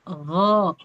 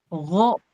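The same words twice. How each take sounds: First: The vowel is said open but rounded. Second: The vowel is said with lips pushed forward. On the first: The speaker calls it right. "Dibuka tapi bulat" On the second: The speaker calls it wrong. "tidak di ogo"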